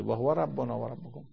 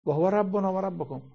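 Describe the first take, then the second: First: Said in the usual way. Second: Emphatic proclamation. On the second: Acted. Preacher proclaiming the verse to the congregation, emphatic and raised. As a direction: proclaim و هو ربنا و ربکم high and strong, stress on ربنا. Quran phrase recited twice.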